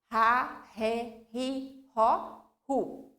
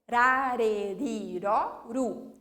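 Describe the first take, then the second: First: The R is a strong, heavy sound. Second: The R is a light, soft tap. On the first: "Com dois, ... o som já vai ser mais forte" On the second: "Com um R vai produzir o som"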